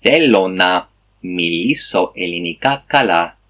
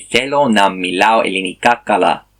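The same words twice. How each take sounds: First: Greek sentence again with μιλήσω, stress on the λή; corrected Greek take. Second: Greek sentence said with the wrong verb μιλάω, stress on the λά; a learner demonstrating his earlier mistake, μιλάω ending -ao; wrong Greek take. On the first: Learner retries the corrected sentence for viewers, careful Greek. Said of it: "let's try it again". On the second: Learner shows his mistake, then carefully recites the wrong Greek. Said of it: "but it's not right". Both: Shown as a demonstration.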